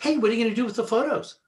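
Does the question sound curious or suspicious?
curious. The question sounds casual and curious.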